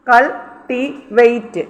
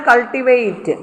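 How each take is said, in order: First: cultivate slowly, split into three syllables. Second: Said in the usual way. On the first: Shown as a demonstration. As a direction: pause between the syllables of cultivate. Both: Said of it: "അപ്പോൾ സിയുടെ മേളിൽ stress".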